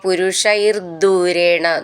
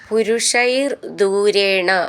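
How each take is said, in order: First: The words run together with a doubled d sound. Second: The two words are said apart with a break.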